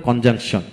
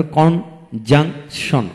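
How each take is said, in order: First: Said in the usual way. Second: conjunction slowly split into three beats; a gap between each syllable of conjunction. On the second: Shown as a demonstration. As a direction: sound out conjunction piece by piece. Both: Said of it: "যে ওয়ার্ডে তিনটি syllable থাকে".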